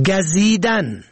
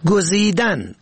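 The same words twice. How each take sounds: First: گزیدن said "gazidan", open a first; fatha on first letter. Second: گزیدن said "gozidan", rounded first vowel; damma on first letter. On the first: Teaching the verb for stinging, short a vowel. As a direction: say گزیدن as "ga-zi-dan". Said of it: "به فتح اول". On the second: Teaching the verb for choosing, short o vowel. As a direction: say گزیدن as "go-zi-dan". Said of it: "به ضم اول". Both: Shown as a demonstration.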